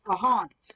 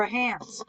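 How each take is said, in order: First: Asking for a spirit, Hans said "hahnz"; Hans with broad A. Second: Alternative name, Hans rhyming with "hands"; Hans with flat A. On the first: Medium asks whether a spirit is present, Hans said "hahnz". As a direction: say Hans with an open "ah" vowel. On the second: Medium offers the spirit another name form, Hans said like "hands". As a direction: say Hans with the "a" of "hand". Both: Shown as a demonstration. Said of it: "Or a Hans?".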